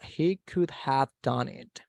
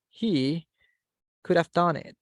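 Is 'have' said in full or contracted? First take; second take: full; contracted. First: The word 'have' is said in full. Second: The word 'have' is reduced to a short 'of'. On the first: "without using contraction" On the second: "What about if I want to use contraction?"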